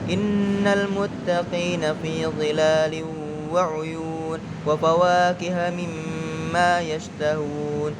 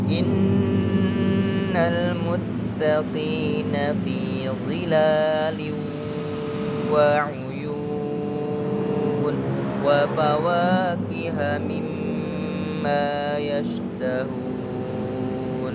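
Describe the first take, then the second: First: It is recited quickly. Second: It is recited slowly and calmly. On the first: "bacaannya dengan cepat" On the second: "Pelan, tenang"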